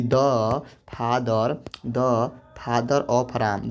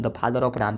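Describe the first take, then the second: First: Very slow, each word apart; drawn-out classroom example; slow dictation. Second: Said in the usual way. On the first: Shown as a demonstration. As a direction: dictate it slowly for students to write. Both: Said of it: "जैसे कहेंगे कि".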